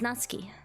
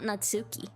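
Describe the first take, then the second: First: The u after ts is nearly silent. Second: The u after ts is clearly pronounced. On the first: The speaker calls it right. "you barely hear the U" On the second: The speaker calls it wrong. "not Natsuki"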